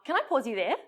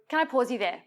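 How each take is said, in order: First: The voice rises at the end. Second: The voice falls at the end. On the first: The speaker is asking permission to interrupt. The speaker calls it wrong. "Not, ... it's like actually asking" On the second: The speaker is stating that they are interrupting. The speaker calls it right. "with that assertiveness in your voice, a downward inflection"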